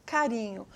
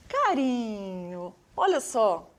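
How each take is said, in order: First: Said in the usual way. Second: Tender. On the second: Shown as a demonstration. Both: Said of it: "que delícia de sinal".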